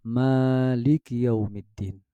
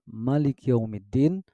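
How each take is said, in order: First: The first vowel of Maliki is long. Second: The first vowel of Maliki is short. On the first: "Ia terdengar dengan mad tabi'i ya" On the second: "dengan litakhfif, meringankan bacaan"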